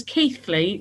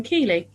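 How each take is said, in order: First: Keighley with th, "Keeth-lee". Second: Keighley with no th, "Kee-lee". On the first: Host sums up the local name, Keighley said Keeth-lee. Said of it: "that's why it's known as Keighley". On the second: Host sums up the rejected reading, Keighley said Kee-lee. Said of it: "rather than Keighley". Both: Shown as a demonstration.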